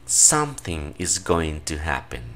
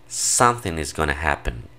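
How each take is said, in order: First: Going to is said fully as two words. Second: Going to is reduced to gonna. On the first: This is the formal form. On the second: This is the everyday informal form.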